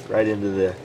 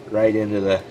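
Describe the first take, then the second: No difference in how they are said.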